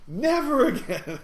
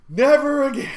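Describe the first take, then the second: First: High, loud and drawn out, breaking into laughter; slow, wailed joking protest; mock outrage. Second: High, loud joking protest; mock outrage. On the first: Shaken passenger repeats his vow, laughing mock outrage. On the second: Shaken passenger storming into the store, mock outrage. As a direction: cry it out in mock horror.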